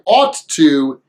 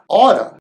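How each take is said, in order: First: Both words are said fully and separately. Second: The words blend into one reduced word. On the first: "we don't pronounce it that way" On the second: "usually pronounced as oughta"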